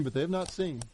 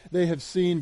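First: Not leaned on, with the line dropping much softer; but they have not seen, with not stressed and the line trailing off softly. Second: Said in the usual way. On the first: Shown as a demonstration. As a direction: land on the word not, then let it fall quietly.

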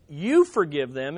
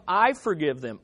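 First: "you" picked out, lower overall; stress on YOU. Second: "I" picked out, falling away low; stress on I. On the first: Preacher contrasting Jesus's actual words, stress on "You". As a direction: put the weight on "You" in "You forgive them". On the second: Preacher giving the wording Jesus avoided, stress on "I". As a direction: put the weight on "I" in "I forgive them". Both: Shown as a demonstration. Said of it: "instead of".

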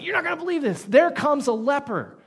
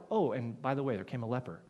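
First: Much higher, louder, breathless news; excited announcement. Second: Casual and flat, dropping lower and softer; offhand aside. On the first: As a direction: announce it like unbelievable gossip. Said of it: "It's like". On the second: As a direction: toss it off like it's nothing. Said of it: "It's not like". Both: Retold or imitated.

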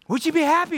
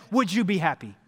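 First: Repeated louder. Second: Said in the usual way. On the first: Shown as a demonstration.

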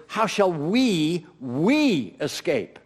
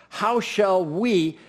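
First: "we" held long and weighted, slow; slow, heavy stress on "we" in "How shall we". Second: "how" stressed, "we" left light, slow; slowly weighted "how", unstressed "we". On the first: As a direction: make "we" the emphatic word, drawn out. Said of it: "The pronoun is we". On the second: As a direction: lean on the word "how", draw it out. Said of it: "unless it's very emphatic". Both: Shown as a demonstration.

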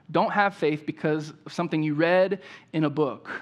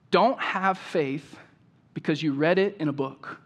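First: Said in the usual way. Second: "Don't have faith" drawn out slowly, "Don't" leaned on with a falling tune; slow emphatic quote. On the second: Shown as a demonstration. Preacher quoting a remembered phrase to the congregation, slow and weighty. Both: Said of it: "it's this phrase".

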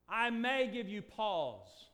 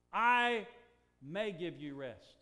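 First: May stressed, drawn out slowly. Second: May stressed and slow, a deliberate misquote. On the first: Preacher testing the church with a wrong quote, slow stressed may. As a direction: hammer may in the misquote. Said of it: "What did He say?". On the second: Preacher misquoting Jesus to test the church, heavy stress on may. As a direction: lean on may to show the wrong word. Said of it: "Is that what He said?". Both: Shown as a demonstration.

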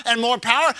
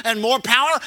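No difference in how they are said.

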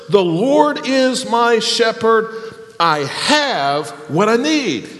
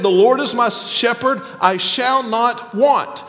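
First: The Lord is my shepherd. I have what I need, read slowly with weight on "need"; slow emphatic reading. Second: Said in the usual way. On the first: Shown as a demonstration. Preacher contrasting the new translation with the old, slow and deliberate. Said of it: "Look at the first verse". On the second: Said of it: "I've always said".

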